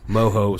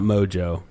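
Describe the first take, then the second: First: The middle consonant is an H sound. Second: The middle consonant is a J sound. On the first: The speaker calls it right. "I think it's actually Moho. Moho, Silent J" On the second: The speaker calls it wrong. "not Mojo"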